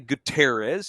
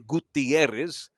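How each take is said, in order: First: It is said with a heavily anglicized pronunciation. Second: It is said with a full Spanish pronunciation. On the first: It sounds careless toward the name. "but don't say Gutierrez" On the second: It sounds like a native speaker's version. "No one expects you to be able to say Gutierrez"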